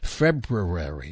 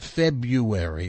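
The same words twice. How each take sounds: First: The r after the b is clearly pronounced. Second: The r after the b is dropped. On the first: The speaker calls it right. "the hardest day of the month to pronounce correctly" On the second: The speaker calls it wrong. "not February"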